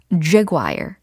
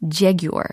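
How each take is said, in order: First: It is said in an American accent. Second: It is said in a British accent. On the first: "jaguar 이렇게 미국식으로 발음이 되고요" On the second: "영국식으로 종종 jaguar 이렇게 발음이 될 때가 있습니다"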